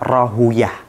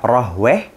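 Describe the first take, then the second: First: The name ends in a longer 'uyah' sound. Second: The name ends in a short 'weh' sound. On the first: "bisa dibaca Rahuyah" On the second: "Bisa dibaca Rahweh"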